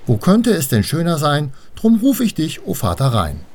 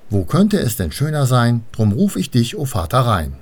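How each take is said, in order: First: Much higher, more insistent call; repeated call. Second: Lightly raised calling rhyme; measured call, falling at the end. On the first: Annabel tries calling Vater Rhein once more, high and insistent. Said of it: "Also sagte sie es noch einmal". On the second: Annabel calls Vater Rhein from the bank, mildly calling out. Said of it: "Sie stellte sich ans Wasser und rief". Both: A narrator's reading.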